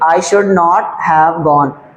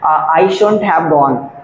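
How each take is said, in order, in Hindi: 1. 'Should not' को दो पूरे शब्दों की तरह बोला जाता है। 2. 'Should not' को एक ही शब्द में संकुचित करके बोला जाता है। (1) "ध्यान से सुनिए" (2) "शुड नॉट को आप कॉन्ट्रैक्शन मिला के बोलना चाहते हैं, शुडंट या शुंट बोल सकते हैं।"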